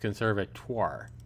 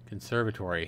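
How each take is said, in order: First: The word ends in a '-twar' sound. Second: The word ends in a '-tory' sound. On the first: The speaker calls it right. "It's conservatoire" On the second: The speaker calls it wrong. "I was saying conservator at first and then conservatory"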